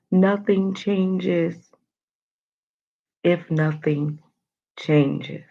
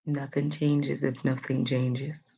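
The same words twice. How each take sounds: First: Slow, every word stretched; drawn out emphasis. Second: Slow sincere quote. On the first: Host repeating the quote to viewers, drawn out. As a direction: drag out "Nothing changes" for emphasis. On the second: Host reading the quote of the day, slow and sincere. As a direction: quote read slowly and softer. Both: Shown as a demonstration. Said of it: "That's the quote".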